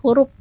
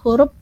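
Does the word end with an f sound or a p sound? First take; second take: p; p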